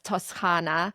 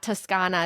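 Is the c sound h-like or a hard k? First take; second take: h-like; hard k. First: The c is pronounced like a breathy h. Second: The c is pronounced as a hard k. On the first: "They pronounce it like an H" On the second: "so it's not Toscana"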